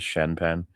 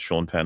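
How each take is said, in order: First: The first name is said like 'Shen'. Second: The first name is said like 'Shawn'. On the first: The speaker calls it wrong. "as Shen Penn" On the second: The speaker calls it right. "pronounced Sean Penn"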